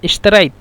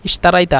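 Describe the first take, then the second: First: The word ends on a bare consonant. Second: The word ends with a final vowel. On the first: This is the regional dialect form. "আঞ্চলিক ভাষায় সব জায়গায় প্রায় জজম দিয়ে দেয়" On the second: This is the standard form. "আমরা বলছি ইশতারাইতা"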